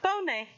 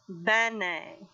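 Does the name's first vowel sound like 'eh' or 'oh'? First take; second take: oh; eh. First: The first vowel sounds like 'oh'. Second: The first vowel sounds like 'eh'. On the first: The speaker calls it wrong. "Not Bonet" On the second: The speaker calls it right. "say it with me. Benet"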